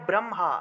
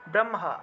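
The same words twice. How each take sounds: First: The h and m sounds are split apart. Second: The h and m sounds are split apart.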